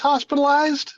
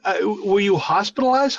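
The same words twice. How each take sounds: First: High, disbelieving repeat of hospitalized; hospitalized? — переспросить высоко, с недоверием; incredulous echo. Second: Said in the usual way. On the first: Real, not acted.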